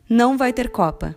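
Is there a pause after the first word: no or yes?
no. It runs on without a pause after não. There will not be a cup.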